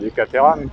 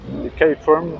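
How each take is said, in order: First: Caterham is pronounced the French way. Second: Caterham is pronounced the English way.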